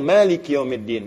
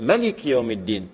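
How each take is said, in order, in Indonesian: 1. Vokal pertama pada Malik dibaca panjang. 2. Vokal pertama pada Malik dibaca pendek. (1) "kita bacanya panjang" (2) "Di situ dibaca pendek"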